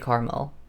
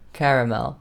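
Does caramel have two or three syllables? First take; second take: two; three. First: The middle vowel is dropped, giving two syllables. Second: The word is said with three full syllables. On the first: The speaker calls it wrong. "I don't say caramel" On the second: The speaker calls it right. "I kind of like to pronounce the letters that are there"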